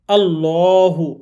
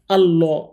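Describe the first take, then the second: First: আল্লাহু with a thick, dark lam, drawn out slowly; heavy lam in Allah. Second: আল্লাহ said with a light, thin lam, quick; the wrong way: আল্লাহ with a thin lam. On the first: Teacher demonstrates the thick lam in Allah. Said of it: "এই লামটা মোটা করে পড়তে হবে". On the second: Teacher shows the wrong thin pronunciation. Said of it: "আল্লাহ পড়া যাবে না এটা". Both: Shown as a demonstration.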